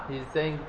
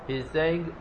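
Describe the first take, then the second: No difference in how they are said.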